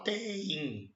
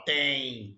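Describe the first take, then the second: First: "tem" stretched into two syllables, te-im; wrong pronunciation. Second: Said in the usual way. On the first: Shown as a demonstration. Teacher disputing the exam answer, mock wrong pronunciation. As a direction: split "tem" as nobody says it. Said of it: "você não fala tem". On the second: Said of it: "você fala tem".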